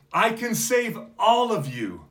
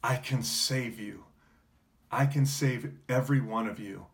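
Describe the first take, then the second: First: High, loud plea, leaning on all; desperate cry. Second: Gentle offer. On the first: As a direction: shout it high and loud, pleading with the crowd. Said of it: "he's crying out". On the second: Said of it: "he would say the same words to you". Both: Retold or imitated.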